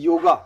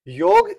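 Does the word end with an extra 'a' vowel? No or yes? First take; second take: yes; no. First: The word ends with an added 'a' vowel. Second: The word ends on the consonant 'g'.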